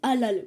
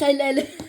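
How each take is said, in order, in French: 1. Il est prononcé avec un accent français simple. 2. Il est prononcé avec une prononciation arabe naturelle. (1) "ils disent halal, bon, ça va" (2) "C'est halal"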